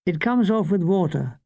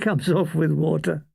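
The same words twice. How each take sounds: First: Said in the usual way. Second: Laughing through the punchline. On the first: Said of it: "she said". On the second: A narrator's reading. Narrator laughing at the makeup girl's words. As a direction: chuckle while repeating the joke.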